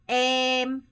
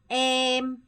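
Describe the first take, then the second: The two takes are said the same way.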